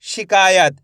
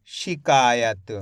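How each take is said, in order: First: Said in the usual way. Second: शिकायत slow and lower, as शि-का-यत; slowly blended syllables. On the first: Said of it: "पहला अक्षर कौन सा आएगा". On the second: Shown as a demonstration. Teacher puts the spelt word together, slowly blended syllables. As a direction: draw out शिकायत syllable by syllable, pitch dropping. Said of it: "तो मिलके बन जाएगा".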